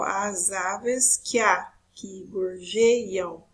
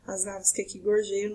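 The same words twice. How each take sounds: First: Very slow, drawn-out syllables. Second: Said in the usual way. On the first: Shown as a demonstration. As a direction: scan the verse slowly, stretching each syllable. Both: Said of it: "o outro exemplo".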